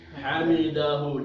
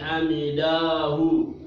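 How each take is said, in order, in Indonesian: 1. Vokal pada 'da' dibaca pendek. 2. Vokal pada 'da' dibaca panjang. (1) "tapi hamidahu dahnya pendek" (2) "bukan hamidahu"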